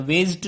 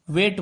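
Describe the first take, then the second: First: वेस्ट said wrongly with an extra G sound; wrong spelling pronunciation. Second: वेट said with no G sound; correct weight. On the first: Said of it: "नहीं बोलते हैं". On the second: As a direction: say वेट plainly, no G. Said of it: "वेट बोलते हैं". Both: Shown as a demonstration.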